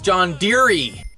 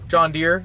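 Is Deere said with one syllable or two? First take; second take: two; one. First: Deere is said as two syllables. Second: Deere is said as one syllable.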